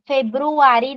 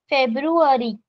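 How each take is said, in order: First: It is pronounced with a Marathi-style accent. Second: It is pronounced with an English accent. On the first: The speaker calls it wrong. "February nahi manaycha" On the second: The speaker calls it right. "English madhe you have to say February"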